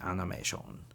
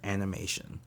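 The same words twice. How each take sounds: First: It is said with a Japanese accent and intonation. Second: It is said with a plain English accent. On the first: "if you say it with a Japanese intonation and accents" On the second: "their word for animation"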